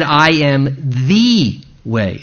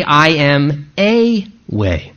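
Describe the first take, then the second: First: "I am the way" with "the" weighted and held; the emphatic right reading, the way singular; stress on the. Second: Slow "I am a way" with "a" leaned on as the wrong version; the wrong version, said slowly; stress on a. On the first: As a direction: press on "the" in "I am the way". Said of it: "It's in the emphatic". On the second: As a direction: drag out "I am a way" to show the mistaken reading. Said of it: "Jesus did not say". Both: Shown as a demonstration.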